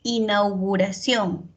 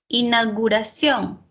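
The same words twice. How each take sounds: First: Inauguración with clear au, inauguración; correct pronunciation. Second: Inauguración said as inaguración; mispronunciation demo. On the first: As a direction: stress the au in inauguración. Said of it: "debería ser". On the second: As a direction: drop the u in inauguración. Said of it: "estoy pronunciando mal". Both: Shown as a demonstration.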